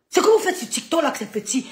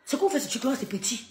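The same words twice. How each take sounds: First: Higher, louder scornful jab; rising to a loud taunt. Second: Said in the usual way. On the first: Real, not acted. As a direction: hammer the put-down home. Repeats taunt softly then loud.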